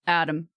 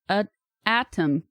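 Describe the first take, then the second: First: The middle consonant is a soft, D-like sound. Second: The middle consonant is a clear, crisp T. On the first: The speaker calls it wrong. "But no, we pronounce it atom" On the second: The speaker calls it right. "We should be pronouncing this a atom"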